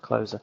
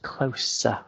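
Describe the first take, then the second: First: The middle consonant is a buzzing z sound. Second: The middle consonant is a hissing s sound. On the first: The speaker calls it wrong. "they'll say that is pronounced closer" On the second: The speaker calls it right. "It's actually pronounced closer, ... it's got an S in it and not a Z"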